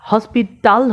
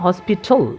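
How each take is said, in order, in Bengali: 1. শেষের L-এর আগে একটি পূর্ণ স্বরধ্বনি শোনা যায়। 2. শেষের L তার আগের ব্যঞ্জনের সাথে মিশে যায়। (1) "হসপিটাল হবে না" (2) "এ এল উচ্চারণ না হয়ে শেষের যে আগের যে কনসোনেন্টটা আছে তার সাথে মিলে যাবে"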